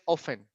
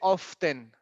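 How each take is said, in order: First: The T sound is left out. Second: The T sound is clearly pronounced. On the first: The speaker calls it right. "we don't pronounce the T" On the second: The speaker calls it wrong. "We don't say often"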